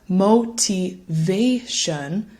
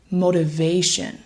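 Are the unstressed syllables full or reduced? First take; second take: full; reduced. First: The unstressed syllables keep full, slow vowels. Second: The unstressed syllables are quick and reduced. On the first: "So instead of motivation" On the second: "said more quickly and with reduced sounds"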